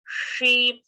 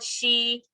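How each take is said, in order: First: "she" with tongue curled to the palate and vowel held; retroflex long sh. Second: "she" with a flat English sh, tongue forward; wrong plain sh. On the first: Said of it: "the lip has to change". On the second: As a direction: say "she" as the faulty version. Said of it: "So it is not she". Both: Shown as a demonstration.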